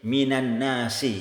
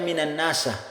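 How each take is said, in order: First: The last word ends in an i vowel. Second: The last word ends in an a vowel. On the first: The speaker calls it right. "Seperti di sini minan nasi" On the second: The speaker calls it wrong. "tidak boleh dibaca"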